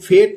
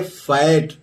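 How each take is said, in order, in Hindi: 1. स्वर 'bed' वाले जैसा सुनाई देता है। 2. स्वर 'bad' वाले जैसा सुनाई देता है। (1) "फेट नहीं पढ़ेंगे" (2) "इसको पढ़ेंगे फैट"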